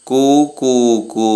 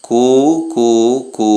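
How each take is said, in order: First: Higher, slow sung-out mock cuckoo coo; cuckoo call. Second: Said in the usual way. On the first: Shown as a demonstration. Who calls coo coo coo.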